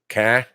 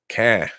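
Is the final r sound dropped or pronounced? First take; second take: dropped; dropped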